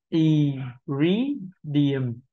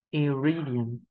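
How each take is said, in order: First: "Y, re, điểm" in separate syllables, "re" stressed. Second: "iridium" run together, stress on "ri"; whole word joined. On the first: Teacher assembling the word for learners, syllable by syllable. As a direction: break up "Y, re, điểm", lifting "re" and dropping "điểm". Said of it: "Âm đầu tiên là âm không nhấn". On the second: Teacher giving learners the finished word, joined up. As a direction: say "iridium" as one word with a rounded R. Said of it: "phụ âm R chúng ta cần phải tròn môi". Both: Shown as a demonstration.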